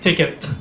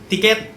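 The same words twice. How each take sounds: First: It is said with an American English accent. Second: It is said with a Filipino English accent. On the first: The speaker calls it right. "you say" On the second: The speaker calls it wrong. "You don't say"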